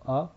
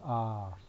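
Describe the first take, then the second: First: The vowel is held briefly. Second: The vowel is held longer.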